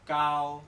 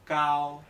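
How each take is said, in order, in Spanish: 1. La primera consonante es un sonido k sordo. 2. La primera consonante es un sonido k sordo.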